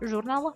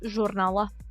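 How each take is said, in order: First: The consonants are soft; the L nearly vanishes. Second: The J and R sound strong and distinct.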